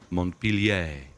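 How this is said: The name is given a French pronunciation. "it may be if you're French. It's spelled that way"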